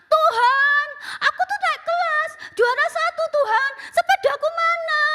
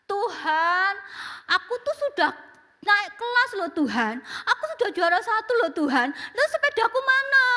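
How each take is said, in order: First: Put-on much higher and louder pleading child; louder prayer. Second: Put-on high pleading child praying; child's prayer. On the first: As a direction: raise the voice so God will hear. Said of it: "dikerasin suaranya". (doa anak dengan suara dikeraskan) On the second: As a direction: beg God like a small boy. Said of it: "dia berdoa". (doa anak yang memelas)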